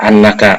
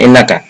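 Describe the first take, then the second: First: The word begins with an a vowel. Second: The word begins with an i vowel. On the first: The speaker calls it right. "dibacanya pakai hamzah berfathah" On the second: The speaker calls it wrong. "bukan innaka"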